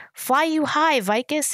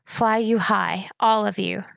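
First: Higher-pitched, restrained yell; yelled farewell. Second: Slow, mildly strained farewell. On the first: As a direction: call out a farewell, pitch lifted. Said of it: "he yelled". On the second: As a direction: draw out a strained goodbye. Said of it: "said in a strained voice". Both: A narrator's reading.

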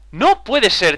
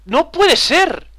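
First: Said in the usual way. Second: High, slow drawn-out disbelief; disbelieving. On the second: Real, not acted. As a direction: stretch it out in shock. Disbelief at dying in game. (incredulidad exagerada)

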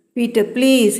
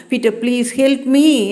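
First: Said in the usual way. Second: A touch of tearful begging, understated; crying plea. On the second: A narrator's reading. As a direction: plead with a catch of tears in the voice. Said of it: "என்று அழுதேன்". (லேசான அழுகையுடன் கெஞ்சல்)

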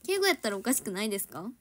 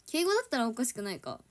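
First: やったら with Kansai intonation and pressing tone; Kansai-dialect keigo. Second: Said in the usual way. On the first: Shown as a demonstration. Idol to fans showing Kansai keigo sounds pushy. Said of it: "なんかちょっと圧".

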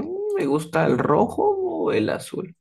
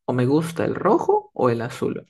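First: High, musing tune with ROJO drawn up; open-ended choice. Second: Firm either-or in the usual pitch; limited choice. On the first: Student answering about favourite colours, undecided and musing. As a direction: ponder aloud, leaving the choice open. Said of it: "como que más onda para decir de que me puede gustar otros colores". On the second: Student naming the only two colours liked, definite. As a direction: set out just two options. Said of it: "a mí me gusta solamente estos dos colores". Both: Acted.

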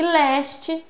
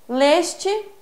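First: Leste with an open é, like léste; noun leste. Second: Leste with a closed ê, like lêste; verb leste. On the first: Teacher contrasting it with the verb, leste with open é. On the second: Teacher showing students the verb form, Leste with closed ê. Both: Shown as a demonstration.

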